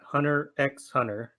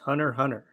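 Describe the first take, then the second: First: An 'ex' sound is heard between the words. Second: No sound is heard between the two words. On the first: The speaker calls it wrong. "not Hunter x Hunter" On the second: The speaker calls it right. "we just make the X silent"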